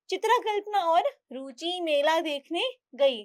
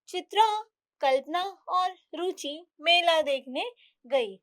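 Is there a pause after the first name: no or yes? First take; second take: no; yes. First: The first two names run together without pause. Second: There is a short pause after the first name. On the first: It is unclear that these are two different girls. The speaker calls it wrong. "अगर मैं इसको ऐसे पढ़ूं, ... तो समझ ही नहीं आ रहा है" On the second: Chitra and Kalpana are two separate girls. The speaker calls it right. "बोलते समय थोड़ा रुकने के लिए"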